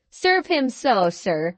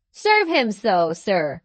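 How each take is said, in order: First: A touch louder, firm and insistent. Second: Slow, pressing and louder. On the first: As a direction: repeat it as a demand, mildly raised. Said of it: "reiterated Slurk in a loud voice". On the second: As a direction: drag it out to provoke him, slowly. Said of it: "in a louder voice than before". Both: Acted.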